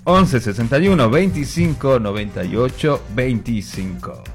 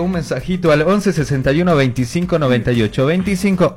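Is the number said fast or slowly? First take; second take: slowly; fast. First: The number is said more slowly. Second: The number is said at normal speed.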